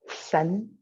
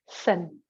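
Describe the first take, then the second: First: The pitch rises slightly across the word. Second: The pitch falls hard and heavy across the word. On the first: It means spirit. "there's a little rising to the tone" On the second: It means kidneys. "a bit of a harder, heavier fall"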